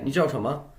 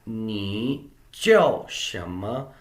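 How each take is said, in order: First: The syllables run together in relaxed, everyday speech. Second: Each syllable is said carefully and separately.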